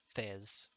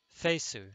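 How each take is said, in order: First: The name is one syllable ending in z. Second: The name ends with an extra vowel syllable. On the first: This is the speaker's own preferred pronunciation. "I'm pronouncing it as Fez" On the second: This is the name's supposed official pronunciation. "Apparently, it was pronounced Fesu"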